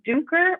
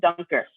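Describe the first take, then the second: First: The name is said with a German pronunciation. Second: The name is said with an American pronunciation. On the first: This is how the name is said in Europe. "is how it's pronounced in Europe" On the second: This is how the name is said in the US. "in the U S and for the rest of this presentation, I'm going to call them Dunker"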